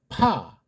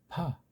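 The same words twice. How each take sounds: First: The lips press firmly together, then burst apart. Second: The lips touch only lightly before the vowel. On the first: "아래 위에 입술이 강력하게 꽉 붙었다 떨어지면 돼요" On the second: "이거는 살짝 붙였다"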